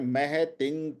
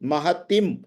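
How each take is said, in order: First: The word ends with a nasal ng sound. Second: The word ends with a clear m sound. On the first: The speaker calls it right. "यहाँ पे थोड़ा सा यंग का उच्चारण है" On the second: The speaker calls it wrong. "अब ये तिम नहीं है"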